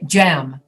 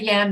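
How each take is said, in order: First: The word begins with a j sound. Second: The word begins with a y sound. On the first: The speaker calls it wrong. "they say jam" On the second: The speaker calls it right. "They don't say yam"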